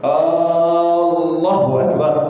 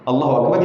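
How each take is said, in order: First: The opening vowel of Allah is drawn out long. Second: The opening vowel of Allah is short. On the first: It turns the phrase into a question. The speaker calls it wrong. "Tak boleh kita mat hamzah jalalah tu" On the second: It states that God is greatest. The speaker calls it right. "kita memberi statement"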